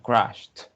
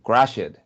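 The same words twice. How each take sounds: First: The ending sounds like a T. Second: The ending is said as a separate syllable. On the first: The speaker calls it right. "La ed suena como una T" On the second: The speaker calls it wrong. "no tiene que decir crashed"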